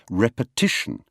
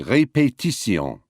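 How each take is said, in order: First: One syllable is pushed harder than the others. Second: All syllables carry roughly equal stress. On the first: This is the English pronunciation. "We say repetition" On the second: This is the French pronunciation. "They say répétition"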